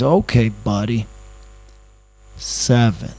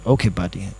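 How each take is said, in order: First: Lightly put-on Middle America voice, drawn out; Middle American accent. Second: Lightly voiced Asian accent. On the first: Driver haggling over the fare, mock Middle American accent. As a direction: imitate a slow-talking Middle American. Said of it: "going to do somebody from Middle America". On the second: Driver haggling over the fare, mild Asian accent. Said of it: "I just did the Asian voice".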